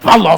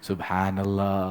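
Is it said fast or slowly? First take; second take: fast; slowly. First: It is said fast and hurried. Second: It is said slowly and calmly.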